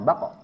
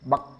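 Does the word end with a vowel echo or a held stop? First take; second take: vowel echo; held stop. First: The final stop is released with an added vowel. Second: The final stop is pressed and held, no vowel. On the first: The speaker calls it wrong. "bukan bako" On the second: The speaker calls it right. "ketika ditempelkan maka dia kuat tekanannya"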